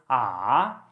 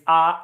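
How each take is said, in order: First: The pitch goes down then back up. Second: The pitch stays flat and level. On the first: "it goes down and then goes up" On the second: "The first tone, it's ah, ... I call it robotic"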